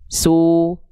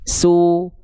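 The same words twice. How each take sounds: First: The lips are pushed forward and rounded. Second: The lips are pushed forward and rounded.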